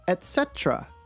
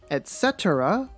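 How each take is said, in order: First: It is said with three syllables. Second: It is said with four syllables. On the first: "or the reduced version, etc. with three syllables" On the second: "with four syllables"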